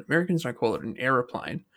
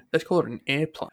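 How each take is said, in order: First: "aeroplane" said in full as air-o-plane; the normal Aussie way of saying aeroplane. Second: "airplane" said as two syllables, air-plane; mocking the American word airplane. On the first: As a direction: give "aeroplane" all three syllables. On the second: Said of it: "they just call it". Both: Shown as a demonstration.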